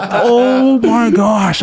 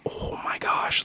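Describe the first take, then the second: First: Very slow, drawn-out dismay; stunned realization. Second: Hushed horrified whisper; whispered to wife. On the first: Caught insulting coworker on phone, slow stunned dismay. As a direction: let it sink in, stretched long. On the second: Turning to his wife after the gaffe, whispered. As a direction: breathe it without voice. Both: Retold or imitated.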